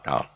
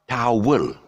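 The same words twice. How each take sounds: First: One gliding vowel sound, with no W glide. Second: Two syllables, with a W glide between them. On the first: The speaker calls it right. "a British guy who says ta- towel" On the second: The speaker calls it wrong. "it's not towel"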